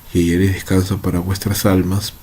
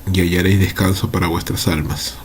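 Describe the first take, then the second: No difference in how they are said.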